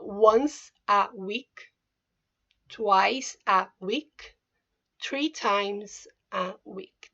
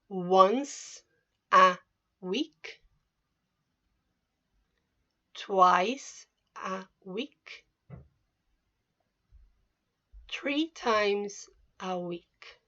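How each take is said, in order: First: The phrase is said at normal speed. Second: The phrase is said slowly.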